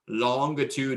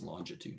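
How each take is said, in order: First: The first part sounds like the word long. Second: The first part does not sound like long. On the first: The speaker calls it wrong. "If you want to mispronounce it, longitude is long" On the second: The speaker calls it right. "I know it's pronounced longitude"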